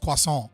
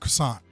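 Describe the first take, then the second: First: Croissant is said with a French pronunciation. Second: Croissant is said with a plain English pronunciation. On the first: "in French is croissant" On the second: "just say it like a normal fucking person"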